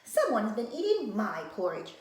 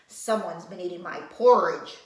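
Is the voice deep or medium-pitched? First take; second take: medium-pitched; deep. First: It is said in a middle-sized, medium voice. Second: It is said in a big, deep voice. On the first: A mid-sized mother bear is speaking. "said Mama Bear in her middle-sized voice" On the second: A large father bear is speaking. "said Papa Bear in his big voice"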